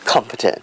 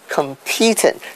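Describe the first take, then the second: First: The stress is on the first syllable. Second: The stress is on the second syllable. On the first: The speaker calls it right. "the stress is on the first syllable, which is competent" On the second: The speaker calls it wrong. "they put the stress on the wrong syllable, which is on the second syllable"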